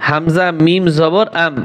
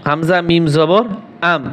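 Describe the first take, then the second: No difference in how they are said.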